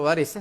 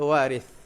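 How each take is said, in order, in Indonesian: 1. Konsonan di tengah itu bunyi 's'. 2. Konsonan di tengah itu bunyi 'th'. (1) "Bahasa Melayu tak sebut waris, sebut waris lah"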